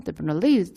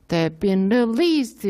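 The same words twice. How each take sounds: First: "they've been" rushed lightly, swing into "released"; singsong rhythm. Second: "They've been released" evenly weighted, syllable by syllable; Korean-style even rhythm. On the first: Teacher shows native rhythm, "they've been released" said as if singing. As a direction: lilt through "they've been released" with the beat on "released". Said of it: "막 노래하듯이요". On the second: Teacher shows the rhythm to avoid, "They've been released" in even Korean rhythm. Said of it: "약간 우리나라처럼 이렇게". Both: Shown as a demonstration.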